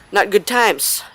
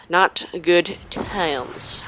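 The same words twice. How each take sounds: First: Said in the usual way. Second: Very slow, dragging each word; drawn out slowly. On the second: Shown as a demonstration. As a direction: stretch it out slowly.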